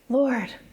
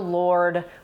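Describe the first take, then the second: First: It sounds earnest and pleading. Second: It sounds sarcastic and eye-rolling. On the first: He is sincerely begging for clarity. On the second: He is mocking the vague answer. "Thomas rolled his eyes and said"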